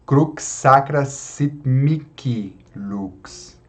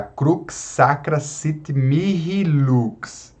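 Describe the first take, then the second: First: "Mihi" said "miki", with a hard K; slow "Crux Sacra Sit Mihi Lux", K inside "Mihi". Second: "Mihi" with a breathed H between the vowels; slow "Crux Sacra Sit Mihi Lux", H sounded in "Mihi"; aspirated H. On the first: Teacher quoting how singers do it, "Mihi" as "miki". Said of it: "os cantores falando, cantando". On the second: Teacher quoting a chant line, "Mihi" with audible H. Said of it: "mihi e nihil também nós podemos". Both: Shown as a demonstration.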